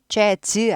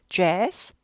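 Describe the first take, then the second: First: It is said with Korean-style consonant sounds. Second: It is said with English-style consonant sounds. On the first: The speaker calls it wrong. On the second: The speaker calls it right.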